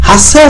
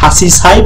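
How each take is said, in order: First: It is said with a doubled 's' and no 'chi'. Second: It is said with a full 'chi' before 'sai'. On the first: The speaker calls it right. "হাসাই আছে সঠিক" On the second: The speaker calls it wrong. "হাসি সাই বললেও সমস্যা নেই"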